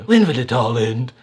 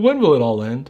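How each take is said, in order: First: It is said in a Stewie Griffin impression. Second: It is said in his normal voice.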